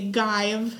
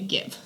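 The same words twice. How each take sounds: First: The vowel is long, like a magic-E word. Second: The vowel is short, not like a magic-E word. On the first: The speaker calls it wrong. "they look like magic E words, but they don't work like a magic E word because if it did, it would make it say give" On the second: The speaker calls it right. "you say give"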